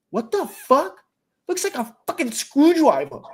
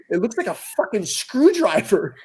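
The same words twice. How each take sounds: First: Higher, lightly voiced five-year-old; little girl voice. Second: Put-on quoting the kid while cracking up; can't hold the laugh on "screwdriver"; laughing through the quote. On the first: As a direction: mimic a small kid, puzzled. Imitating five-year-old daughter. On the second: Retelling daughter's line, laughing.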